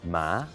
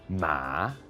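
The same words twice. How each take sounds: First: The pitch rises from lower to higher. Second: The pitch dips down and then rises again. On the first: "The second tone goes from lower to higher" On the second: "goes from kind of a high thing down and then back up again"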